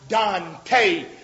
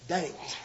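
First: The name is said like Dante. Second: The name rhymes with ain't. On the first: The speaker calls it wrong. "It looks like Dante" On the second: The speaker calls it right. "it's pronounced like ain't"

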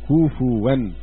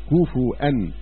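First: The f takes a u vowel, then a w sound. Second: The f takes a u vowel, then a glottal stop. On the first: This is the reading transmitted by one reciter. "ورواه حفص بالتثقيل وقلب الهمزة واوا" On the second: This is the reading of most reciters. "قرأ الأكثرون بالتثقيل والهمز"

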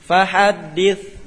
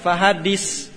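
First: The final consonant is a soft th without hissing. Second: The final consonant is a hissing s sound. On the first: The speaker calls it right. "Tidak ada desis" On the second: The speaker calls it wrong. "Bukan fahaddis"

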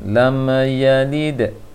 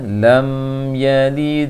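First: The lam sound is bounced with an echo. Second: The lam sound is held plainly without echo. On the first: The speaker calls it wrong. "Lam sukun terpanturkan" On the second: The speaker calls it right. "Seharusnya lam yalid wa lam yulad. Karena lam tidak termasuk huruf yang boleh dipantulkan"

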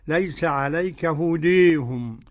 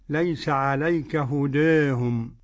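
First: The long vowel in hudahum sounds fully like 'e'. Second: The long vowel in hudahum leans slightly toward 'e'. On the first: "والإمالة الكبرى للإمام حمزة والكسائي وخلف العاشر" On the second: "والتقنين"

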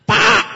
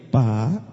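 First: It is shouted harshly and loudly. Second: It is said gently and sweetly. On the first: The caller sounds like a horse. The speaker calls it wrong. "Sama kuda, mirip" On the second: The caller sounds pleasant like a cat. The speaker calls it right. "Coba kalau istri ngomongnya begitu"

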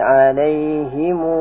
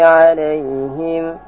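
First: The word ends with a longer -himu. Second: The word ends with a short -him. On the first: "baca lagi" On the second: "bisa membaca bermacam-macam qiraah"

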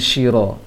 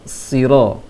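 First: The syllable begins with a sh sound. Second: The syllable begins with a thick emphatic s. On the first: The speaker calls it wrong. "jangan shiro" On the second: The speaker calls it right. "tebalkan saja sedikit untuk sin"

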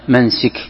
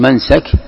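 First: The vowel before the final k is i. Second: The vowel before the final k is a. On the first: It names the place of the rite. "أما بالكسر فهو اسم مكان" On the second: It names the rite or act itself. "بفتح السين منسك"

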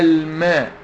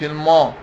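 First: The m sound is thin and light. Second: The m sound is thick and heavy. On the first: The speaker calls it right. "الميم مرققة" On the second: The speaker calls it wrong. "مش الماء"

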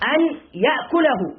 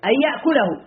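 First: The n is pronounced separately before the y. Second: The n merges into the following y sound. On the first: "أنا نطقت بدون إدغام لتفهم" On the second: "إدغام"

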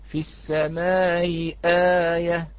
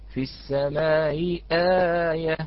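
Both takes have the same delivery.

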